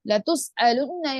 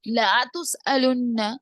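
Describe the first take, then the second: First: The first vowel is short and quick. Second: The first vowel is stretched out long. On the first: We will surely ask you. The speaker calls it right. "ल का माना ... ताकीद पैदा करता है" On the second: We will never ask you. The speaker calls it wrong. "थोड़ा सी भी खींच के हरकत की जगह और मद्दा बना देंगे"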